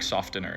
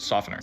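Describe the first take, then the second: First: The t sound is pronounced in the middle. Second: The t sound is silent in the middle. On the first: Nobody actually says it this way. The speaker calls it wrong. "I don't think I've ever heard anybody say like fabric softener" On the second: This is how people normally say it. The speaker calls it right. "It's just softener"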